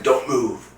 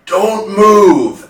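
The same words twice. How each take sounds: First: Raised-pitch imitated warning, held back from a shout; urgent warning. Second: Loud, high-pitched imitated order; alarmed shout. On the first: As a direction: repeat the examiner's order, high but controlled. Examiner's order repeated, less loud. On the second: Retold alarmed eye examiner's order.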